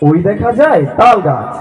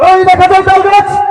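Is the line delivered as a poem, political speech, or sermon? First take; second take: poem; political speech. First: It is recited in a plain poetry-reading style. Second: It is delivered like a politician's rally speech. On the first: "কবিতা বললো" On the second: "ওই যে রাজনীতিবিদরা যেভাবে বলে আর কি"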